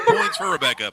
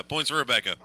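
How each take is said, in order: First: High, loud, laughing shout of praise; laughing cheer. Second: Said in the usual way. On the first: Real, not acted. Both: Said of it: "I appreciate the fact".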